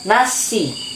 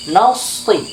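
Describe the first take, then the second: First: The s is light, with the tongue kept low. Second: The s is heavy, with the tongue back raised. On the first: The speaker calls it wrong. "Jangan langsung diturunkan nasi, maka jadi sin nanti" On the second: The speaker calls it right. "pangkal lidah kita naikkan"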